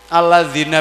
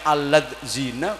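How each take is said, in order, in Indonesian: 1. Konsonan tengah adalah bunyi 'dh' yang lembut. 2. Konsonan tengah adalah bunyi 'z' yang bergetar.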